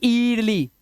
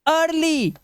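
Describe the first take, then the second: First: "ईयरली" starting on long ee; wrong slow "ईयरली", ee before r; mistaken reading. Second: "अर्ली" higher, starting on open uh; raised, drawn-out "अर्ली"; uh sound. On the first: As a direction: say "ईयरली" as eer-lee. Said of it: "ना कि". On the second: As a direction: model "अर्ली" as ur-lee. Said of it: "आ की आवाज". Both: Shown as a demonstration.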